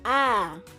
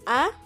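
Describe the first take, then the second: First: The vowel is drawn out longer. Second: The vowel is held only briefly. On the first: "long as" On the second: "short as"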